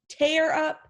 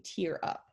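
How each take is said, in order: First: Tear is said as in the ripping sense. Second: Tear is said as in the crying sense. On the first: Someone rips something into many pieces. "but in this case, it's tear up" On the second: Someone starts to cry a little. "pronounce as tear up if you're talking about when you kind of start to cry"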